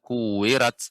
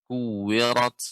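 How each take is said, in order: First: The r sound is thin and light. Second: The r sound is thick and heavy. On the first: The speaker calls it wrong. "Tidak kuwirat. Kuwirat ini tipis" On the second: The speaker calls it right. "Ra di sini tebal Pak"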